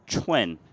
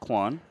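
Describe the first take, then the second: First: The name begins with a 'ch' sound. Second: The name begins with a 'kw' sound. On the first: The speaker calls it right. "It's actually Chuen" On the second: The speaker calls it wrong. "So you see it as Quan"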